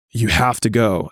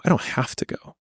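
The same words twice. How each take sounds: First: Said in the usual way. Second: I don't have to go said softer, with a hushed stress on don't; pushed-back denial. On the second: Shown as a demonstration. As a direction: breathe out don't as a quiet refusal.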